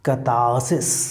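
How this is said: The r after the first vowel is silent. "the British pronunciation ... is catharsis. ... No r is there"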